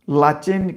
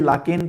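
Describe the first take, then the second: First: The middle consonant is a 'ch' sound. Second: The middle consonant is a 'k' sound. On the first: "लाचेन कह लीजिए" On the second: "लाकेन कह लीजिए"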